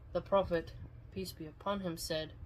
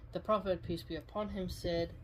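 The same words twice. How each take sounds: Both takes have the same delivery.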